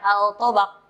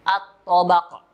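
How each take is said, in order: First: The L sound is clearly pronounced before T. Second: The L is dropped and merges into T. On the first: The speaker calls it wrong. "jangan dibaca al-tobaq" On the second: The speaker calls it right. "Harus idgham sehingga alif lamnya hilang"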